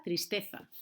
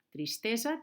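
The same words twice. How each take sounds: First: Tristeza con Z interdental; Castilian Z. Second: Tristeza con S, a la valenciana; Valencian-style S. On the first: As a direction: remarca la zeta de tristeza. (tristeza amb zeta castellana) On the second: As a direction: di tristeza con una S normal. (tristeza amb S valenciana) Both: Shown as a demonstration. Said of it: "que en castellano es una Z".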